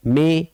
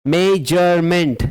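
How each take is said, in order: First: मेजरमेंट pulled apart: मे, जर, मेंट; long silences between the beats of मेजरमेंट; broken into syllables. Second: मेजरमेंट in linked beats, मे-जर-मेंट; clear, measured मेजरमेंट for the class; three-beat reading. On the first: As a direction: dictate मेजरमेंट one syllable at a time. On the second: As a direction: enunciate each syllable of मेजरमेंट. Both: Shown as a demonstration. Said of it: "three".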